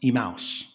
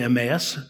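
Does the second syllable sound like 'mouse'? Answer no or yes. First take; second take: yes; no. First: The second syllable sounds like mouse. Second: The second syllable does not sound like mouse. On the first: This is how people in the place itself pronounce it. "They pronounce it Emmaus" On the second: This is the usual local pronunciation. "in this country, we typically say Emmaus"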